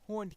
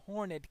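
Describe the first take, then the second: First: The word is said with one syllable. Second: The word is said with two syllables. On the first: The speaker calls it wrong. "it wouldn't be right if you said horned" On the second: The speaker calls it right. "Tolkien needed an extra syllable"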